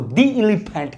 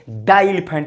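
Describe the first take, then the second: First: The article is said with a long 'ee' vowel. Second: The article is said with a short 'uh' vowel. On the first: The speaker calls it right. "इसको दी elephant कहेंगे" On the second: The speaker calls it wrong. "इसको नहीं कहेंगे"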